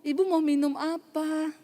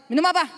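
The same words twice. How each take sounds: First: Polite, grateful offer. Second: Quick, higher, brusque question; mock curt demand. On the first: Retold or imitated. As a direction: offer a drink sweetly and politely. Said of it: "terima kasih ya Ibu". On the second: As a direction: snap the question out rudely. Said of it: "Tapi kalau dia tanya Saudara".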